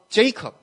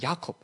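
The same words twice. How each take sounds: First: The name begins with a J sound. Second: The name begins with a Y sound. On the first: "要是你叫Jacob" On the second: "其实发音比较像Jacob"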